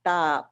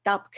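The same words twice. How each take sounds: First: Tapk with the vowel held long; slow, extended vowel in tapk; drawn-out vowel. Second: Tapk with a short, clipped vowel; plain quick tapk. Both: Shown as a demonstration. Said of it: "you extend the vowel sound".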